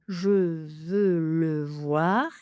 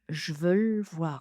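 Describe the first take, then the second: First: All four syllables are pronounced fully. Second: It is squeezed down to only two syllables. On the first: "quatre syllabes" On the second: "On n'a plus que deux syllabes"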